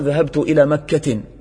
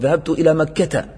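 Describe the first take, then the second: First: The last word ends with an added n sound. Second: The last word ends in a plain a vowel. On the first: The speaker calls it wrong. "فما تقول ذهبت إلى مكة" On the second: The speaker calls it right. "تقول ذهبت إلى مكة، لأن الممنوع من الصرف يجر بالفتحة"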